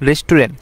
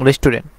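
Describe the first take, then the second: No difference in how they are said.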